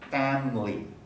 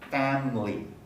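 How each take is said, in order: First: It is said with two syllables. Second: It is said with two syllables.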